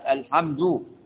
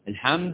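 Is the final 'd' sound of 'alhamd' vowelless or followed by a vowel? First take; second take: vowel; vowelless. First: The 'd' is followed by a vowel sound. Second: The 'd' carries no vowel after it. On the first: The speaker calls it wrong. "ينفعش الحمد" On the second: The speaker calls it right. "سكن الدال"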